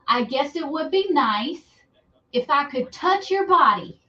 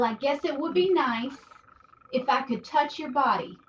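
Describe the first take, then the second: First: It is said loudly. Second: It is said quietly.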